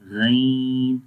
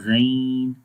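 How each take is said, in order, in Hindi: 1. अक्षर बारीक और हल्का बोला जाता है। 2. अक्षर बारीक और हल्का बोला जाता है।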